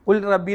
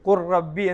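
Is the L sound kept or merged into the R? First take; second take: kept; merged. First: The L is pronounced separately before the R. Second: The L merges into a doubled R sound. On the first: The speaker calls it wrong. "ഇവിടെ ലാമിനെ പ്രത്യേകം സുക്കൂൻ കൊടുത്ത് ഉച്ചരിക്കരുത്" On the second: The speaker calls it right. "ഇദ്ഗാം ചെയ്ത് റായിലേക്ക് ചേർത്ത്"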